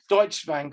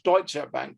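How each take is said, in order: First: Deutsche is pronounced as a non-German speaker would. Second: Deutsche is pronounced the way German speakers do. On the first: The speaker calls it wrong. "when people who don't speak German call it Deutsche Bank" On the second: The speaker calls it right. "I speak German, and it's called Deutsche Bank, because that's the correct pronunciation"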